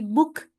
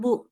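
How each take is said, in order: First: The syllable ends with a k sound. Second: The syllable ends without a k sound. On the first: The speaker calls it right. "tapi buk. Pakai kaf" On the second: The speaker calls it wrong. "bukan bu"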